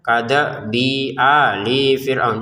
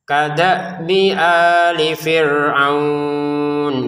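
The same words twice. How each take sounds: First: The vowels before ali and fir'aun are lengthened. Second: The vowels before ali and fir'aun stay short. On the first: The speaker calls it wrong. "jangan ada panjang antara bi dan hamzah atau li dan fir'aun ini" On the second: The speaker calls it right. "langsung dibaca kadabi ali gitu ya"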